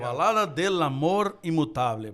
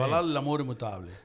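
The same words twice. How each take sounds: First: The phrase is said at a normal pace. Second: The phrase is said quickly.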